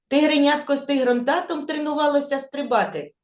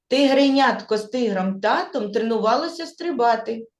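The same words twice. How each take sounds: First: The sentence is spoken very fast. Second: The sentence is spoken at a faster pace. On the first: "А тепер іще швидше" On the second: "Швидше повторимо"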